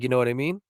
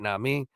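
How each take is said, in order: First: Every word of the phrase is pronounced. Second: The phrase is clipped to two short syllables. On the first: This is the speaker's own, less ordinary way of saying it. "My shit's like" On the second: This is the common, much-mocked way of saying it. "Nah mean is the regular shit"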